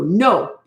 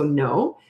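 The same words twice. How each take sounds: First: It is said harshly, in a scary tone. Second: It is said gently, in a calm tone. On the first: It frightens the child to tears. The speaker calls it wrong. "you never say no that you make them cry. You don't go no. You don't talk like that" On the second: It firmly stops the child without upsetting them. The speaker calls it right. "Just go no"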